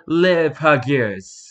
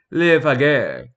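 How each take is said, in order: First: Slow, drawn-out French "Les Pagures"; French pronunciation. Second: "Les Pagures" in a thicker French accent. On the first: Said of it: "I'm not speaking in a French enough accent". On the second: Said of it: "not speaking in a French enough accent". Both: Shown as a demonstration.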